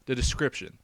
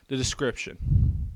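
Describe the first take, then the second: First: Said in the usual way. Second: Slow, hushed whisper of the heading; a drawn-out ominous whisper; dramatic whisper. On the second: Shown as a demonstration. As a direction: whisper it slowly like a spooky announcement.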